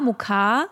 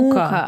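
First: The stress is on the second syllable. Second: The stress is on the first syllable. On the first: The word means flour. "die Betonung bei Mehl liegt auf A" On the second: The word means torment. "bei Qual, Mukka auf U"

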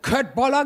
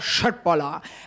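First: The word begins with a hard k sound. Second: The word begins with a soft sh sound. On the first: The speaker calls it wrong. "wie ich sage, Köttboller gemacht" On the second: The speaker calls it right. "Es heißt aber Schöttboller"

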